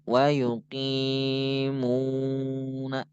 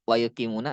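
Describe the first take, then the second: First: The vowels in ki and mu are long. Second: The vowels in ki and mu are short. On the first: The speaker calls it right. "maka wayuki panjang" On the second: The speaker calls it wrong. "jangan wa yuqimuna lah. Pendek semua jadinya"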